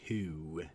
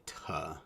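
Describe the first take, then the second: First: Said in the usual way. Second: "tuh" with a short, relaxed uh for the vowel. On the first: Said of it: "instead of saying". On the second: Shown as a demonstration. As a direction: reduce the oo of to into "tuh". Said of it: "they say".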